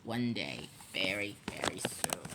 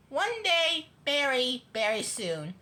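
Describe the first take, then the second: First: Very low, hushed threat; sinister principal plotting quietly; menacing vow. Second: Said in the usual way. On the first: A narrator's reading. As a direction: sink deep and soft into a vow. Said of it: "Mister Krupp vowed".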